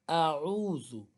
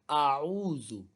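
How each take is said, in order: The two takes are said the same way.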